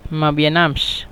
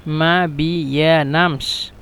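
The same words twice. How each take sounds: First: Said in the usual way. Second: মা বিয়ানামস drawn out syllable by syllable; slow syllable demo. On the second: Shown as a demonstration. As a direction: teach মা বিয়ানামস slowly, ma-bi-ya-nams. Teacher breaks phrase into syllables.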